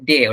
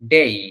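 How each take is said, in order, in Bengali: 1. স্বরধ্বনিটি গড়িয়ে না গিয়ে সাধারণ থাকে। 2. স্বরধ্বনিটি 'ee' ধ্বনিতে গড়িয়ে যায়। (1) "আমরা যেটা বলে থাকি ডে, ওটা ডে না" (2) "ওটা হচ্ছে ডেই"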